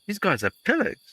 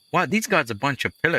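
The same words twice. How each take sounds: First: "pillars" said high with a big rising pitch; stress on pillars. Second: Said in the usual way. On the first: Shown as a demonstration.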